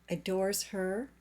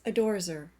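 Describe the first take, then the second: First: The h sound in 'her' is pronounced. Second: The h sound in 'her' is dropped.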